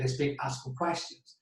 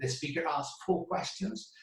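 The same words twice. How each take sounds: First: The word before 'questions' is weak and reduced. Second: The word before 'questions' is full and strong. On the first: The speaker asked for questions. "pidió preguntas" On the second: The speaker asked four questions. "preguntó cuatro preguntas"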